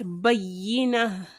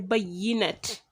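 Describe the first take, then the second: First: The word ends with a vowel. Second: The word ends with a t sound. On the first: The speaker calls it right. "but bayyina" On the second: The speaker calls it wrong. "you wouldn't say bayyinat"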